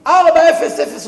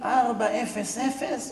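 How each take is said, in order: First: ארבע אפס אפס shouted high and loud; loud exclaimed emphasis. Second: ארבע אפס אפס spaced out slowly, each number weighed; measured emphasis. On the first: Preacher stressing the rabbi's exact punctuality, ארבע אפס אפס shouted high. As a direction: belt out ארבע אפס אפס in high-pitched astonishment. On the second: Preacher to listeners, counting out ארבע אפס אפס slowly. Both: Shown as a demonstration. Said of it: "איך אומרים?".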